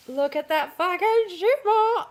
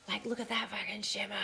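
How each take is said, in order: First: Higher, slow, delighted exclaim; excited gush. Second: Hushed whisper, breathless with awe; awed whisper. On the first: To her viewers, showing off the shimmery fabric, excited gush. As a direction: let the delight burst out, drawn out. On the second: To her viewers, admiring the shimmery fabric, awed whisper. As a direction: whisper it like a secret treasure. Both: Real, not acted.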